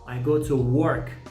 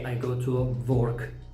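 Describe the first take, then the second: First: The word work starts with a w sound. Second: The word work starts with a v sound. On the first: The speaker calls it right. "See, w" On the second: The speaker calls it wrong. "It is not correct to say I go to work. V"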